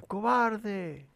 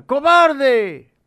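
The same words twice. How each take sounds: First: Softer, distant echo of the insult. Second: Much higher and louder furious yell; angry shout. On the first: The mountain echoes the boy, distant echo. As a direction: send it back from far away. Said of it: "del otro lado le contesta". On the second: Angry boy yells at the mountain, furious shout. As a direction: hurl the insult across the valley. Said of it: "Enojado, el niño grita". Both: A narrator's reading.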